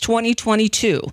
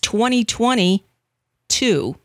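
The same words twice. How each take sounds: First: The number is said at normal speed, run together. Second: The number is said slowly, with a break before two. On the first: It is the year after 2021. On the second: It is 2020 all over again.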